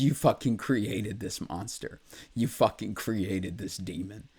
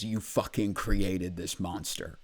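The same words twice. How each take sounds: First: A touch more raw, rising at the ends; mild mock outcry at his family; emotional inner scream. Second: Said in the usual way. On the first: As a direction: let the pain push the quote upward. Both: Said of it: "Sorry, I'm getting a little emotional".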